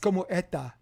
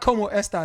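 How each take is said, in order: First: The s sound in esta is dropped. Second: The s sound in esta is clearly pronounced. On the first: "it's como eta" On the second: "So it's not como esta"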